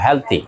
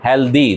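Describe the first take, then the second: First: The middle consonant is a t sound. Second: The middle consonant is a d sound. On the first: The speaker calls it right. "No এটা ত দিয়ে বলবো" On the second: The speaker calls it wrong. "দ দিয়ে বলি না"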